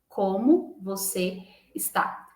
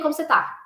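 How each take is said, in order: First: The last word is said in full. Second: The last word is shortened to one syllable. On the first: This is unusually formal speech. "É diferente de eu falar assim" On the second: This is casual everyday speech. "no dia a dia, você escuta assim"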